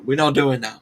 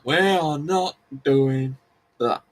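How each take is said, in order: First: Said in the usual way. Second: WE ARE NOT DOING THAT, slowed and spaced out; firm, slow stress on each word of "We are not doing that"; emphatic refusal. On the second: Real, not acted. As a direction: draw out "We are not doing", then land "that" separately.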